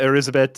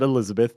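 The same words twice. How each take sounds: First: The name is said with a foreign pronunciation. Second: The name is said with an American pronunciation. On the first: "or however you pronounce it" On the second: "is how our uh, weak American tongues would pronounce it"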